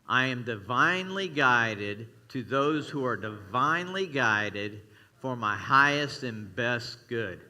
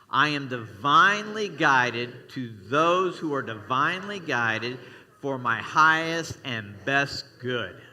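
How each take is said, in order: First: It is said with little energy. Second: It is said with gusto and feeling.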